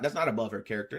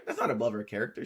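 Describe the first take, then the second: First: Quoting him lower and quieter; low, quiet quote. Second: Repeating "That's not above her character" low and soft; low, quiet quote. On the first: Retelling what he said in a low, quiet voice. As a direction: drop the voice low on "that's not above her character". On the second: Repeating his words low and quiet to the chat. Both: Retold or imitated. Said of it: "and he's saying".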